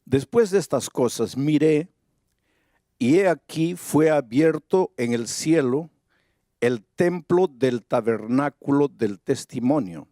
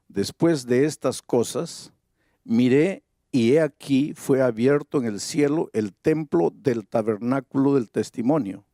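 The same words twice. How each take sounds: First: Said in the usual way. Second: Slower, stressing "Después" and "he aquí"; slow emphatic reread. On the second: Shown as a demonstration. Preacher repeats the verse for the congregation, slow and stressed. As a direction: reread it slowly so every phrase lands. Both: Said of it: "dice así".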